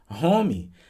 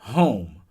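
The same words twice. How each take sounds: First: It is said with a Brazilian Portuguese accent. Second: It is said with a native English accent.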